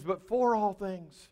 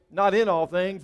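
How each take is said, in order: First: "for" leaned on, phrase slowed; slow down and pick out "for"; stress on FOR. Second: "in" stressed as the rejected word. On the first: Contrasts "for" with "in. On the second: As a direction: pick out "in" against "for". Contrasts "in" with "for. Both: Shown as a demonstration.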